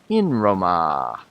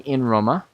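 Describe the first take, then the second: First: The final vowel of Roma is long. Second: The final vowel of Roma is short. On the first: The speaker calls it right. "Say in Roma" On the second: The speaker calls it wrong. "don't say in Roma. That's wrong"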